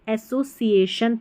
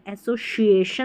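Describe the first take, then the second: First: The middle consonant is an s sound. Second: The middle consonant is an sh sound. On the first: The speaker calls it right. "Hindi में देख ले आप एसोसिएशन पढ़ेंगे" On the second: The speaker calls it wrong. "एसोसिएशन नहीं पढ़ते"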